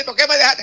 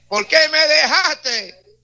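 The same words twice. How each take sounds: First: Mock wailing widow. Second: Mock wailing. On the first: Repeat of widow line. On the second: Mocking widow again.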